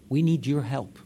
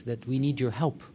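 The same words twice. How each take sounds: First: Louder repeat with "need" punched and falling; "We need your help" said louder, "need" stressed with a falling tune. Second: Said in the usual way. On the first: Shown as a demonstration. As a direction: plead firmly, hitting "need" hard. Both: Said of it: "stress this".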